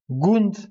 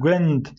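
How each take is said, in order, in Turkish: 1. Ünlü, düz bir arka u sesi. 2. Ünlü, ö sesine yakın. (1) "Gund demedik" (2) "Gwend dedik değil mi?"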